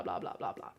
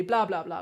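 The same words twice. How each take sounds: First: Blah blah blah whispered low and soft; whispering. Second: Said in the usual way. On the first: Shown as a demonstration. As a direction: drop into a breathy whisper. Repeat trails into whisper.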